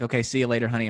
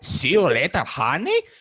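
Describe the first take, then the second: First: It is said in Luis's plain voice. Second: It is said in an imitated Placido voice.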